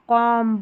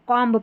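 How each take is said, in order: First: The word ends on the m sound. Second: A b sound is heard after the m. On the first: The speaker calls it right. "यहाँ पर इसको कॉम्ब नहीं पढ़ेंगे" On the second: The speaker calls it wrong. "ये अक्सर गलत पढ़े जाते हैं"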